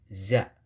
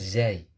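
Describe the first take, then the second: First: The letter name ends in a plain a. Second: The letter name ends in an ai sound. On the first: The speaker calls it right. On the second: The speaker calls it wrong. "bukan zai"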